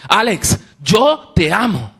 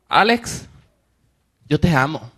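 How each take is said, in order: First: Firm, slow "Alex, yo te amo", higher and weighty; strong voice. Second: A hint of a sweet old lady saying it kindly. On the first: Retold or imitated. Lady turns serious and declares love to Alex, firm and slow. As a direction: say it slowly with serious conviction. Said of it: "con una voz fuerte me dice". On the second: Elderly lady tells Alex she loves him, mildly sweet and tender. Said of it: "no una voz dulce".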